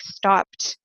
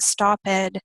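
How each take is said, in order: First: The ending is a short T sound. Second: The ending is a separate extra syllable. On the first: The speaker calls it right. "has a T sound" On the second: The speaker calls it wrong. "It's not stopped"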